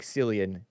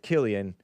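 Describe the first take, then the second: First: The name starts with an S sound. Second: The name starts with a K sound. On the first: The speaker calls it wrong. "It looks like Cillian" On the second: The speaker calls it right. "but it's Killian because it's Irish"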